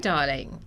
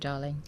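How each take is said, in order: First: It is said in a put-on British accent. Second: It is said in a plain, non-British accent. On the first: "let me go do my British accent then" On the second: "That's not a British accent, right? No, I'm trying to just do my... being proper"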